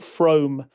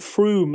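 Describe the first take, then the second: First: The name is said the way outsiders say it. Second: The name is said the way locals say it. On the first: The speaker does not know the place. The speaker calls it wrong. "which everybody who doesn't know how to pronounce the place calls it" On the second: The speaker knows the place. The speaker calls it right. "I'm so delighted that you've called it Frome"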